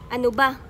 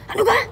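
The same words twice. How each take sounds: First: The voice stays at a plain, ordinary level. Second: The voice is raised higher and louder. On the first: "Dito din sa Maynila" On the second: "Tapos inyong tataasan ang inyong buses"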